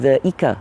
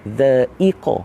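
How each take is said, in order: First: The middle consonant is a plain front k. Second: The middle consonant is a deep throat q. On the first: The speaker calls it wrong. "Bukan dha'ika. Dha'ika huruf kaf" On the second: The speaker calls it right. "Dha'iqa huruf qaf"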